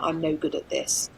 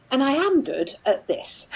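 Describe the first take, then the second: First: Said in the usual way. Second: Am pushed up high and loud; stress on am. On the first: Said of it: "negative things in their head". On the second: Shown as a demonstration. Therapist showing a client's reframe, am stressed and raised. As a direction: lift am, louder and higher. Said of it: "I would always encourage".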